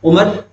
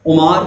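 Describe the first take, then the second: First: Said in the usual way. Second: उमार with the second vowel drawn long; mispronounced name. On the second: Shown as a demonstration. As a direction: stretch the last syllable of उमार. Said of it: "This is the problem that happens".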